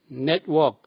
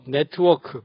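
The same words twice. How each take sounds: First: The t is held with no vowel after. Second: The t is followed by an extra vowel. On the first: The speaker calls it right. "트 소리만 빼면 됩니다" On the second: The speaker calls it wrong. "변두리 발음 트 소리를 꼭꼭 달고 다닙니다"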